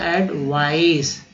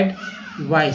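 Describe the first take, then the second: First: एडवाइस said slowly, split into एड-वा-इस; slow broken-up word. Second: Said in the usual way. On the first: Shown as a demonstration. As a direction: break एडवाइस into parts, slowly. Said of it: "तीन बार भी तोड़ सकते हैं". (धीरे-धीरे तोड़कर: एडवाइस) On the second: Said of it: "दो बार पढ़ लेते हैं".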